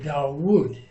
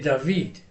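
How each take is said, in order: First: The middle consonant is a w sound. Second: The middle consonant is a v sound. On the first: "People who call it a wow are gonna say Dawood" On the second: "people that call this a, a v, they're gonna say David"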